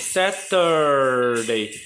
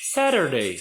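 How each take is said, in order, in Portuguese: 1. O t do meio é um t claro e completo. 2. O t do meio soa como um tepe rápido. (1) "na outra pronúncia" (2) "no inglês total americano"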